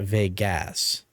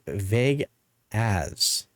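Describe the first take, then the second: First: It sounds like the single usual word 'Vegas'. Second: It sounds like two separate words, 'vague as'. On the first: "not Vegas" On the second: "she was saying it like vague as"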